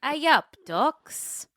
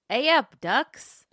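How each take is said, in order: First: Lightly voiced Yorkshire, pitched up; Yorkshire accent. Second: Light Yorkshire greeting, bright and loud; a hint of broad Yorkshire; Yorkshire accent. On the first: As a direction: try a broad Yorkshire greeting. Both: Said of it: "Strong Yorkshire accent required".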